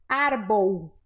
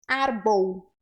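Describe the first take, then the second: No difference in how they are said.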